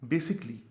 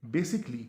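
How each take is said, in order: Both takes have the same delivery.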